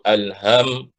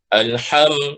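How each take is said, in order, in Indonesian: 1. Bunyi h itu berdesah biasa, berasal dari ujung kerongkongan. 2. Bunyi h itu serak, berasal dari tengah kerongkongan. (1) "disebut ha di hujung kerongkong" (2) "ha tadi di mana? Di tengah kerongkong"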